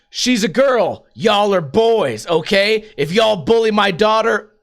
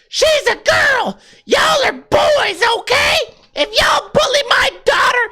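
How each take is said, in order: First: It is said in the reader's own voice. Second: It is said imitating the mother's voice.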